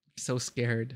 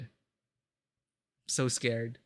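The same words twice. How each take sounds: First: Said in the usual way. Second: A streamer dreading the next scene, slow and scared; drawn-out scared. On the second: Real, not acted. Streamer to chat before a tense reveal, dragged-out and scared. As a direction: stretch every word, very slow and quiet.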